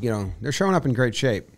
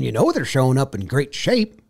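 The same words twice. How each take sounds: First: It is said in a plain, sincere tone. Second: It is said in a silly, mocking tone. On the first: The claim is taken at face value. "people are still saying" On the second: The claim is being ridiculed as a cliché. "the tone of SpongeBob"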